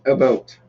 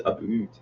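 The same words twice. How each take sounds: First: "About" carefully said, trying to avoid "boot"; attempted careful ABOUT. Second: "about" turned into "a boot"; exaggerated Canadian ABOUT. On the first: Tipsy Canadian trying to hide his accent, careful "About". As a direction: try to say "About" without the Canadian vowel. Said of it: "I fucking can't". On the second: Admitting how his accent comes out, "a boot". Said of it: "it's always a boot". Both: Shown as a demonstration.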